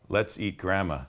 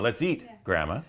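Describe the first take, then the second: First: It is said with no pause before grandma. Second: It is said with a pause before grandma.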